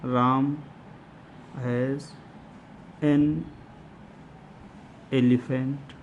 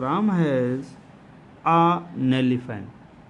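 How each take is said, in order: First: The words an and elephant are said separately. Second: The n sound is joined onto elephant.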